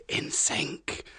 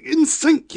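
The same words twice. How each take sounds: First: Unvoiced playful whisper. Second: High, loud, playful call. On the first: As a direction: breathe the words back softly. Whispered echo of same words. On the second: Pretend. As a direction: sing out the phrase, bright. Playful echo after story.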